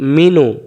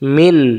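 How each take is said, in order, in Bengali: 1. শব্দটি খোলা স্বরে শেষ হয়। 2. শেষ স্বরটি বাদ পড়ে, শব্দটি ব্যঞ্জনে শেষ হয়। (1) "নুন পেশ নু" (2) "দম ফেলার জায়গা দিলাম, এবার আর মিনু হবে না"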